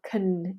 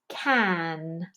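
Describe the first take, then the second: First: It is said in a quick, reduced form. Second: It is said in its full, careful form.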